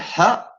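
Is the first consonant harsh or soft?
soft. The first consonant is a soft breathy h-sound. "va con H"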